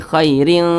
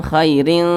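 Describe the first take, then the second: No difference in how they are said.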